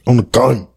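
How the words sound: It is said imitating how she sounds.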